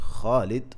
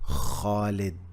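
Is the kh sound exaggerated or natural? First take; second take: natural; exaggerated. First: The kh sound is light and natural. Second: The kh sound is strongly exaggerated. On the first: This is how people say it in real life. "when it comes to real life, we don't do we don't say that. We say Khalid" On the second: It helps learners pronounce the letter. "I make sure that I stress on the letter"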